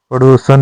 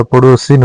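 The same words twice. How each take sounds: First: पड़ोसन said as "padosan"; the incorrect form पड़ोसन, "padosan", ending in -an; wrong pronunciation. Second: पड़ोसिन said as "padosin"; the correct form पड़ोसिन, "padosin", ending in -in; correct pronunciation. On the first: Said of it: "पड़ोसन नहीं होता". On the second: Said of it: "पड़ोसिन होता है". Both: Shown as a demonstration.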